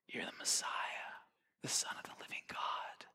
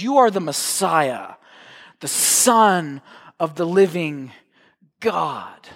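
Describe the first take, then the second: First: It is said in a hushed whisper. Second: It is said in a normal voice.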